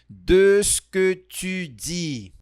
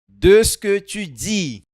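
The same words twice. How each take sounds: First: The phrase is said more slowly. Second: The phrase is said at normal speed.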